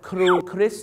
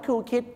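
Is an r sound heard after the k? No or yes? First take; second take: yes; no. First: The r sound after the k is pronounced. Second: The r sound after the k is dropped. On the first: The speaker calls it right. "ต้องเป็นอะไรครับครูคริสสิ" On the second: The speaker calls it wrong. "ไม่ใช่ครูคิด"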